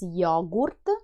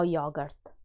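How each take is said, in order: First: The word is said with an Italian pronunciation. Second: The word is said with an English pronunciation. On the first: The speaker calls it right. "the Italian pronunciation is different from the English one. It's yogurt" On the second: The speaker calls it wrong. "no yogurt"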